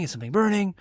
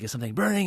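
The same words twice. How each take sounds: First: Mock-worried, climbing higher on burning; higher, alarmed repeat. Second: Said in the usual way. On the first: Coworker smelling smoke in the store, higher alarmed ask. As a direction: pitch jumps up on the second asking.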